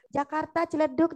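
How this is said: It is said in a soft, gentle tone. The speaker calls it right. "dengan lembut"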